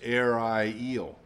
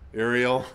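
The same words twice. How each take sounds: First: It has a long I and a long E. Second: It lacks the long I and long E vowels. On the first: "Long I, long E" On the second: "like the character on Disney"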